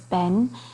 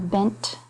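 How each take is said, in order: First: The final t sound is dropped. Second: The final t sound is clearly pronounced.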